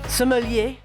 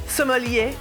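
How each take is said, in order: The two takes are said the same way.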